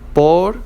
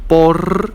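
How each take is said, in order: First: The final R is a soft tap. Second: The final R is strongly trilled. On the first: The speaker calls it right. "we say it like soft because it's ending" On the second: The speaker calls it wrong. "We don't say por"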